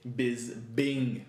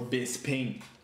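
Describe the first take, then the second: First: The middle consonant is a b sound. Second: The middle consonant is a p sound. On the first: "Bisbing with a B, double B instead of B P" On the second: "It's spelled Bisping"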